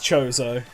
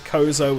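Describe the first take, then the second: First: The name begins with a CH sound. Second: The name begins with a K sound. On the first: The speaker calls it wrong. "Chozo just sounds weird to me" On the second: The speaker calls it right. "I've always said Kozo with the silent H"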